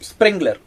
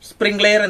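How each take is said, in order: First: It ends in a short 'ler' sound. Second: It ends in a separate 'layer' sound. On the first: The speaker calls it right. "ആ സംഭവത്തിന് പറയുന്നതാണ് സ്പ്രിംഗ്ലർ" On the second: The speaker calls it wrong. "ശരിയായ ഉച്ചാരണം സ്പ്രിംഗ് ലെയർ എന്നല്ല"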